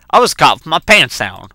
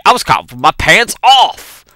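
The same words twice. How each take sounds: First: Said in the usual way. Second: OFF punched louder and higher; emphatic correction landing on "off"; stress on OFF. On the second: Shown as a demonstration. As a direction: correct yourself by hitting the word "off".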